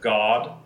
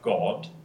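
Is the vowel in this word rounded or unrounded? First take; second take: unrounded; rounded. First: The vowel is open and unrounded, American style. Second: The vowel is short and rounded, British style. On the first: "Instead of God" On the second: "that's the short rounded O. So we have God"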